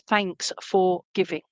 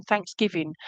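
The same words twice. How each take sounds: First: "Thanks for giving" as three slow, separate words; slow down and part "Thanks for giving"; separated words. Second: Said in the usual way. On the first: Retold or imitated. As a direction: say "Thanks for giving" slowly, word by word. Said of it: "but she said".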